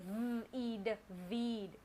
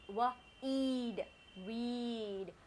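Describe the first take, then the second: First: The word starts with a v sound. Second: The word starts with a w sound. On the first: The speaker calls it wrong. "I don't bite my lower lip. I don't say v, eed, weed" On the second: The speaker calls it right. "So I blow a kiss when I say the sound of W"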